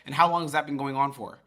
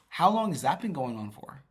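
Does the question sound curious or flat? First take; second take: flat; curious. First: It sounds flat and uninterested. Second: It sounds curious and energetic.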